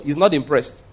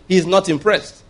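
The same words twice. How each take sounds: First: Said in the usual way. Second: NOT IMPRESSED said higher, insistently; insistent restatement. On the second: Real, not acted. Preacher demanding the congregation listen, insistent "not impressed". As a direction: press home "not impressed" on a higher pitch. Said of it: "listen to me".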